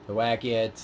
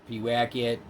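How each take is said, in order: No difference in how they are said.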